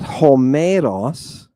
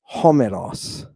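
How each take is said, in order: First: The stress falls on a later syllable. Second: The stress falls on the first syllable. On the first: The speaker calls it wrong. "Not homeros" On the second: The speaker calls it right. "but homeros"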